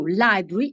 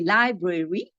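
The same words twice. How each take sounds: First: The word is said with two syllables. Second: The word is said with three syllables. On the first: "it's two syllables when you talk" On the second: "when you write it, it's three syllables"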